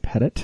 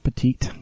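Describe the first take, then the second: First: The name ends with a short 'it' sound. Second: The name ends with a long 'eet' sound. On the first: The speaker calls it right. "her last name is not petite. It's Wendy Pettit" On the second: The speaker calls it wrong. "not petite"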